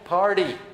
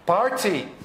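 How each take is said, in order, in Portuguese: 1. Ela é dita com sotaque americano. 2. Ela é dita com sotaque britânico. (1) "na verdade, é party" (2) "inglês britânico"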